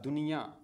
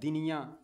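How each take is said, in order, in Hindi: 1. पहला स्वर छोटा u है। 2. पहला स्वर छोटा i है। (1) "दाल नून पेश दुन ये या दुनिया। अब सही है" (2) "दाल नून ज़ेर दिन ये या दिनिया, या दिनिया भी कोई लफ्ज़ नहीं है"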